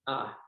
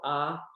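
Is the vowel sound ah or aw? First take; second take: ah; ah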